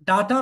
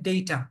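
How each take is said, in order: First: The first vowel sounds like 'ah'. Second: The first vowel sounds like 'ay'. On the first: The speaker calls it wrong. "ডাটা না কিন্তু" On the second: The speaker calls it right. "It's ডেটা"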